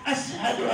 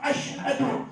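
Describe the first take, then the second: First: It is said with an 's' sound. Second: It is said with a 'sh' sound. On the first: "शीन की जगह पे सीन पड़ता था" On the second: This is the standard Arabic pronunciation. "नहीं कह सकता था"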